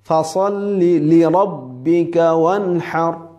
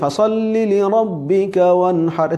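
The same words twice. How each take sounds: First: The second 'li' is pressed with extra force. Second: The second 'li' gets no extra force. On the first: The two words sound separate and the meaning is clear. The speaker calls it right. "আমরা যখন লিরাব্বিকা বলবো তখন লাতে লিতে একটু চাপ দিব" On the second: The meaning does not come across clearly. The speaker calls it wrong. "তবে সুন্দর হয় না, অর্থ ক্লিয়ার হয় না"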